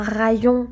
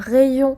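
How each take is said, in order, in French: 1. La première voyelle est différente de celle d'essayer. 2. La première voyelle est la même que celle d'essayer. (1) "On ne dit pas un rayon de soleil" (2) "c'est un rayon, comme le verbe essayer"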